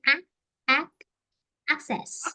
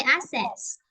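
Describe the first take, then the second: First: ACCESS broken up as "ak... ak... ak-sess"; correct access. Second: ACCESS said as "assess", the K sound missing; mispronounced access. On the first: Teacher showing what we would actually say, correct access. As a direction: sound the K in "access", building it up piece by piece. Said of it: "actually, we would say". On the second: Recalling how they said it before checking the dictionary, mispronounced access. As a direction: say "access" with only an S in the middle. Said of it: "this is called poor pronunciation". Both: Shown as a demonstration.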